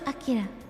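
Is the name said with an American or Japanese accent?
Japanese. It is said with a Japanese pronunciation. The speaker calls it right. "I know it's Akira"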